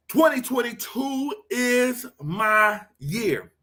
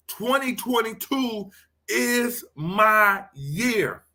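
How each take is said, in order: First: Twenty twenty-two is my year, each word drawn out slow and high; slow declaration. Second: Slow, higher, leaning on "my"; slow declaration. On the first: Pastor leading viewers in an affirmation, slow declaration. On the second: Pastor repeating the affirmation for Tina, slow declaration. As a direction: proclaim it slowly, stressing "my". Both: Shown as a demonstration. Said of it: "I need you to say that".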